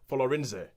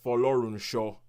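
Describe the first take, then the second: First: The name ends with a 'ze' sound. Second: The name ends with a 'sho' sound. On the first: The speaker calls it wrong. "they pronounce it like Folorinze" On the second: The speaker calls it right. "I will pronounce this last name properly"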